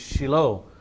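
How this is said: It is said with a Hebrew pronunciation. "the Hebrew pronunciation is Shiloh"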